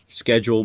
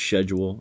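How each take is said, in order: First: It is said the American way. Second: It is said the British way. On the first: "Different pronunciations. Schedule becomes schedule" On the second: "becomes schedule"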